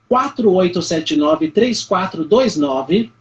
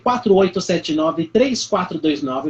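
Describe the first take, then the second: First: The digits are read slowly and deliberately. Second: The digits are read at normal speed.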